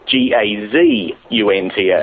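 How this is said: The letters are said in an American accent.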